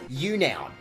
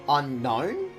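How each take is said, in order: First: The word begins with a 'you' sound. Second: The word begins with an 'uh' sound. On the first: The speaker calls it wrong. "I used to just call it you noun" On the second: The speaker calls it right. "it was supposed to be unknown from the movies"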